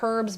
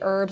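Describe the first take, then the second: First: The word starts with an H sound. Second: The word starts without an H sound. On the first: Other people say it this way. "I've also heard people say herbs" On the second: This is how people say it where the speaker is from. "Where I'm from, we say herbs"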